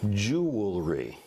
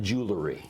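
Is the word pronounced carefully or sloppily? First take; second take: carefully; sloppily. First: The word is pronounced carefully and precisely. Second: The word is pronounced loosely and sloppily. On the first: The speaker calls it right. "to make sure every syllable counts" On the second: The speaker calls it wrong.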